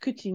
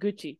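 First: The word begins with a voiceless k sound. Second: The word begins with a voiced g sound. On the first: The word stands on its own. "What does kuchi mean on its own?" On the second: The word is the second part of a compound. "That is that voicing to get Gucci"

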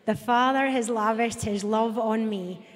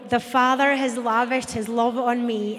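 First: It is read with ordinary, calm energy. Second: It is read loudly with lively, forceful energy.

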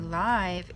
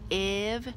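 First: The vowel is a long I sound. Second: The vowel is a short I sound. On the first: "it would go here silent E" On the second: "where you hear a short I sound"

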